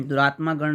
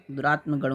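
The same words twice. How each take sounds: First: दुरात्मा गण with long "maa"; wrong compound form. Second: दुरात्म गण with short "ma"; correct compound form. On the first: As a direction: hold aa in दुरात्मा गण. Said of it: "नहीं होता". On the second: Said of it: "होता है". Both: Shown as a demonstration.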